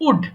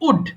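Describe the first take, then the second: No difference in how they are said.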